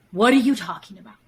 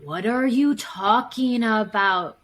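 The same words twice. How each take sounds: First: Quick, louder put-on denial; gaslighting partner dismissing the complaint quickly; feigned innocence, faster. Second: Slow, put-on puzzled voice; gaslighting partner pretending nothing happened; feigned innocence. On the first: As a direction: brush it off fast as if baffled. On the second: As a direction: play dumb, denying it happened. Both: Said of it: "I literally look at you and I go".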